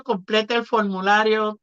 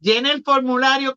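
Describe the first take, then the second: First: "completa el formulario" in native Spanish, rolled r; Spanish phrase. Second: "Llena el formulario" in native Spanish, rolled r; Spanish phrase. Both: Shown as a demonstration. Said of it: "It's a different way".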